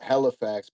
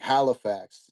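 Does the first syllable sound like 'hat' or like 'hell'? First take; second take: hell; hat. First: The first syllable sounds like 'hell'. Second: The first syllable has an open 'a' sound. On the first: The speaker is from the area. "they say like hell, like H E L L Halifax" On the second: The speaker is not from the area. "more with the A sounding"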